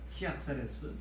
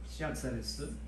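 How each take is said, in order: First: The name begins with a K sound. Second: The name begins with an S sound. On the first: "K 발음도 나잖아요" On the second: "C로 발음돼 S 발음도 나지만"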